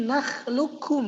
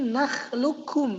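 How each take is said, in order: First: The q sound merges fully into the k. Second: The q sound merges fully into the k.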